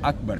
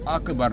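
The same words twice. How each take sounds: First: The k sound is firm without an echo. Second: The k sound bounces with an echo. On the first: The speaker calls it right. "स्ट्रॉन्ग आवाज़ रख के अकबर" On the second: The speaker calls it wrong. "अकबर ना हो, यानी काफ पर करकला ना हो"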